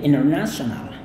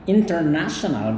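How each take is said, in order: First: The t after the n is silent. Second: The t after the n is pronounced. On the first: This is the American way of saying it. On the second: This is the British way of saying it.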